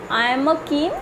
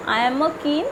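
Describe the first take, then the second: No difference in how they are said.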